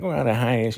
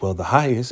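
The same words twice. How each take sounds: First: Raised, mock parroting voice. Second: Said in the usual way. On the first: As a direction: throw the words back in a high, slurred imitation. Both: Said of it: "mocking Zane because".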